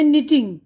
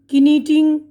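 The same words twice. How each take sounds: First: निटिंग starting straight on N; correct silent K. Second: किनीटिंग with an extra ki- syllable before N; silent K sounded. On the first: Teacher giving the right reading, निटिंग with silent K. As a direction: say निटिंग with no K sound. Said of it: "के silent है इसमें". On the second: Teacher showing a wrong reading, किनीटिंग with K sounded. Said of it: "ये तो नहीं बोल रहे हैं ना". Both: Shown as a demonstration.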